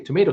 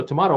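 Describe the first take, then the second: First: Tomato said tuh-MAY-toh; tomato, middle vowel as in day; long-A tomato. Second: Tomato said tuh-MAH-toh; tomato, middle vowel as in father; broad-A tomato. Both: Shown as a demonstration. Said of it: "What's the difference?".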